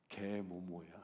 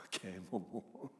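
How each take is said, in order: First: Said in the usual way. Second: Laughing. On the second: Shown as a demonstration.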